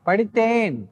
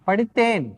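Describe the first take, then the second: Both takes have the same delivery.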